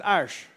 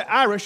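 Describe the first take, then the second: First: "Irish" lowered and softened, Grandma's country pronunciation; Grandma's way of saying it. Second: Said in the usual way. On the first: Retold or imitated. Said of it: "she said Irish". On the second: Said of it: "She didn't say Irish".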